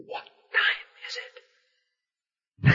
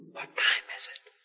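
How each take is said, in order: First: Repeated hushed whisper; whispered again. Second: Hushed whisper in a chapel pew. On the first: Pressing a friend in a quiet chapel, whispering. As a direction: whisper the question once more. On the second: Leaning over to a friend at a funeral, whispering. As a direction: whisper it so no one hears. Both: Retold or imitated.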